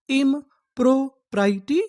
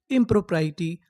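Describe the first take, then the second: First: इम्प्रोप्राइटी stretched slowly, higher, rising at the end; slow demo. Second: Said in the usual way. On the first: Shown as a demonstration. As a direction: drag इम्प्रोप्राइटी out for the students. (इम्प्रोप्राइटी धीरे-धीरे खींचकर) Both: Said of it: "तो हम लोग उसे English में क्या बोलेंगे?".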